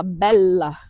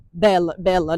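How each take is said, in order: First: Bella with the LL held long; double L. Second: Bella, bella with one short L, the wrong way; bella, bella clipped to a single L, the mistake Italians hear. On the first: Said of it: "Com dois L's". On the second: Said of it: "se falar com um L só". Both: Shown as a demonstration.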